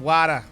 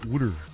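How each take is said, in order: First: Said in a Boston accent, with no final r. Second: Said in a Philadelphia accent, sounding like wooder. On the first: "In Boston, they have Wada" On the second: "Or in Philadelphia"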